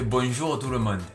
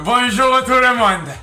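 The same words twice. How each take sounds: First: It is said with a southern French accent. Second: It is said in an imitated TV chef's voice. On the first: "si tu le fais avec l'accent du Sud" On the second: "Si tu le fais avec la voix de Cyril Lignac"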